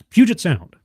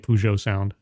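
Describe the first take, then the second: First: The first word does not sound like Peugeot. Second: The first word sounds like the car brand Peugeot. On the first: The speaker calls it right. "I think I'm pronouncing that right" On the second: The speaker calls it wrong. "Part of me wants to say Peugeot sound"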